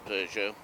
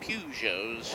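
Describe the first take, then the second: First: The word is said in its standard pronunciation. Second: The word is said in a homely, non-standard way. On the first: This is the correct way to say the name. The speaker calls it right. "the proper pronunciation is a Peugeot" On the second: This is how a relative used to say it. The speaker calls it wrong. "My father used to call them Peugeots"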